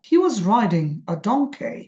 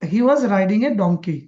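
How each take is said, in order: First: The pitch moves in big waves, peaking on donkey. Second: The pitch stays fairly flat with small waves. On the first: The speaker calls it right. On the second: The speaker calls it wrong.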